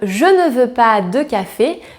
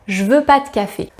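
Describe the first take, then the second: First: Every word is pronounced fully, including ne. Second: The word ne is left out entirely. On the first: This is the standard written form. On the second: This is how it is usually heard in speech.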